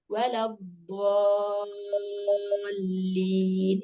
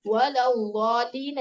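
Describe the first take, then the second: First: വലദ്ദാലീൻ chanted very slowly with a heavy dad; sung, draw it out melodically, full-mouthed; sung, teacher reciting the corrected ending; sung, correct recitation. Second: വലദ്ദാലീൻ with a light d like normal dal; teacher showing the mistake to avoid; wrong light dal. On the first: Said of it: "ദ്വാദാണ്". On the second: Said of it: "എന്നല്ല". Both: Shown as a demonstration.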